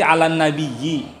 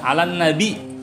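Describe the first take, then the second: First: The last word has a doubled y before its ending. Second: The last word has a glottal stop before its ending. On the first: "yang pertama tadi" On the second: "atau dibaca dengan hamzah"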